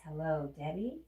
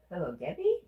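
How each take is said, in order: First: Said in the usual way. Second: Louder, rising "Debbie?" in surprise; surprised question. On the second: Real, not acted. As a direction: react like you recognise the name. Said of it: "Is that you?".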